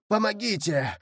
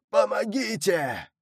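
First: Higher, desperate cry of help; plaintive call for help. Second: Higher, slow, drawn-out shout of Помогите; desperate shout for help. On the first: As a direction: call out from the water, pleading for rescue. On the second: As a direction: scream it as the last hope of a drowning man. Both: Acted. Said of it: "жалобный голос".

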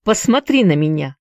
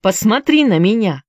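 First: Demanding. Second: Repeated command, pushed louder; louder demand. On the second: Esau demands that Mercy look at him, louder. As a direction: insist harder the second time. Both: A narrator's reading. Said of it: "требовательно произнёс Исав".

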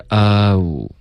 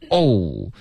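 First: "哦" with a relaxed, gliding English "oh"; correct oh. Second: "哦" as a flat Chinese "o" sound; wrong Chinese-style "哦". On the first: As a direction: open "哦" into a loose "oh" glide. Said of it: "开头应该是哦". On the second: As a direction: say "哦" like Mandarin "o", not a glide. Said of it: "别发成哦". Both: Shown as a demonstration.

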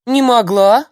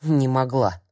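First: High, loud startled "Не могла" rising; surprised. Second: Bewildered. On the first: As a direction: gasp out "Не могла" in disbelief. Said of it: "удивилась бабка и даже растерялась". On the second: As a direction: murmur "Не могла" to herself, confused. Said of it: "и даже растерялась". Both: A narrator's reading.

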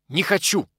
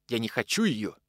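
First: Громче и выше, с нажимом на «хочу»; «Не хочу!» выкрикнуть резко, с упором на «хочу»; резкий выкрик. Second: Said in the usual way. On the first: Acted. Захаров нервно повторяет отказ. (Захаров нервно отказывается, громко и резко)

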